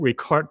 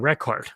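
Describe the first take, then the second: First: It is pronounced as the verb form. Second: It is pronounced as the noun form. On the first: It means to capture something. "whether this word record is a verb or a noun, it uh, sounds differently" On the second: It means a stored entry. "whether this word record is a verb or a noun, it uh, sounds differently"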